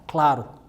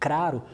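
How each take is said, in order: First: The first cluster is said with an L. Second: The first cluster is said with an R.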